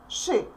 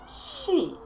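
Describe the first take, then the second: First: The sh sound is hard, not like English she. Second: The sh sound is soft, like English she. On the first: The speaker calls it right. "please don't forget that sh is always hard" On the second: The speaker calls it wrong. "Please don't try to pronounce this part like she"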